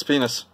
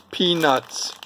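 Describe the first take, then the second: First: "peanuts" slurred until it sounds like "penis"; slurred pronunciation. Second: "Peanuts" with both syllables distinct; careful pronunciation. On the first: Showing their accent's slip, "peanuts" slurred into "penis". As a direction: run it together, losing the T in "penis". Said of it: "if I say it fast enough". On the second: Warning viewers not to slur, "Peanuts" pronounced carefully. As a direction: enunciate "Peanuts", a clear "nuts" at the end. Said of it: "make sure you pronounce that correctly". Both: Shown as a demonstration.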